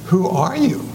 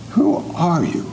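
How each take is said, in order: Both takes have the same delivery.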